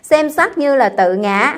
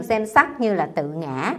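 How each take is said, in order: First: "Xem sắc như là tự ngã" slow, higher and louder, "sắc" stressed with a rise; chanted "sắc" lifted and held; emphatic recitation. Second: Said in the usual way. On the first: Shown as a demonstration. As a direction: lean hard on "sắc", slowing the whole line. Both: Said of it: "đoạn này phải chú ý nè".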